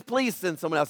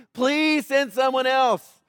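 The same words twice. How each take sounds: First: Said in the usual way. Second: Slow, drawn-out plea; begging. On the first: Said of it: "Well, he says". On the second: Retold or imitated. Preacher voicing Moses begging God, slow drawn-out plea. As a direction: plead it, stretching the words out. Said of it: "but he's begging God".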